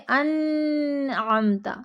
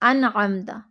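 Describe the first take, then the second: First: The n sound is prolonged and flowing. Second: The n sound is cut off abruptly. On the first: "तब भी ये हर्फ नाक़िस अदा होगा" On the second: "शिद्दत के साथ पढ़ेंगे तो ये हर्फ सही अदा नहीं होगा"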